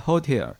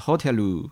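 First: It is said with standard English pronunciation. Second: It is said with a Japanese accent.

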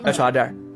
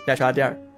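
First: It is said short and falling, Chongqing style. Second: The same.

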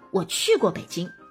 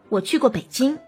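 First: The stress falls on 去过. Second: The stress falls on 北京. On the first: It answers whether I have been to Beijing. "你去过北京吗" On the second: It answers which city I have been to. "你会很明显的突出北京"

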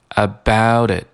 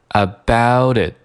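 No difference in how they are said.

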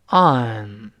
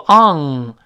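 First: The tongue root stays still and the throat stays open. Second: The tongue root rises and blocks the throat. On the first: The speaker calls it right. "舌根不动on" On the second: The speaker calls it wrong. "不要读on，舌根喉咙不能堵死啊"

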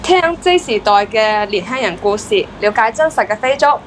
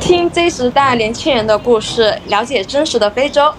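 First: It is spoken in Cantonese. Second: It is spoken in Mandarin.

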